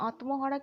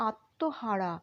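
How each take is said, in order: First: আত্মহারা with the ম sounded, "at-mo-hara"; spelling pronunciation. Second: আত্মহারা as "at-to-hara", no m; silent ম. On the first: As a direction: say আত্মহারা letter by letter, voicing the ম. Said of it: "আমরা উচ্চারণ করব না". (আত্মহারা, ম স্পষ্ট উচ্চারণ করে) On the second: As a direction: drop the ম in আত্মহারা and double the t. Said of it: "ময়ের উচ্চারণটা উহ্য থাকবে". (আত্মহারা, ম উহ্য রেখে "আত্তোহারা") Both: Shown as a demonstration.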